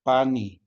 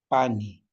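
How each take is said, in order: First: Pani said clearly, stress on pa; teacher models pani; modeling pani. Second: Pani, falling tune, stress on pa; teacher repeats Pani. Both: Shown as a demonstration.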